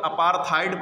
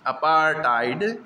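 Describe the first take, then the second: First: अपार्थाइड with aspirated TH in place of T; mispronounced with TH. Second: अपार्थाइड drawn out as apaar-taid; अपार्थाइड as apaar-TAID, rising at the end; corrected hard T. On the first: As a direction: say अपार्थाइड as apaar-THAID. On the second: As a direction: say अपार्थाइड slowly with unaspirated hard T. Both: Shown as a demonstration. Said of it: "pronunciation वो गलत है".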